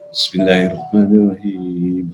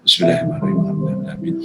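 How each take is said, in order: First: It is said slowly, with calm breath. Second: It is said fast, with hurried breath.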